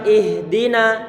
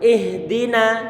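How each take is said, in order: The two takes are said the same way.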